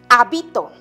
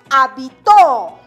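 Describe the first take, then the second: First: The stress is on the second syllable. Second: The stress is on the third syllable. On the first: "En la segunda sílaba, o sea, en la penúltima sílaba" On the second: "La mayor fuerza de voz recae en la última sílaba"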